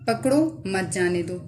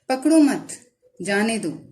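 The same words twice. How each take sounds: First: There is a pause after the first word. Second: There is a pause after the second word. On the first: Catch him and do not let him go. "यानी उसको पकड़ लो, जाने ना दो" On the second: Do not catch him; let him go. "पकड़ो मत के बाद सकते की अलामत लगती है"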